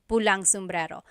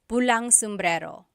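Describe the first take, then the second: First: An ng sound is joined onto pula. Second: An ng sound is joined onto pula.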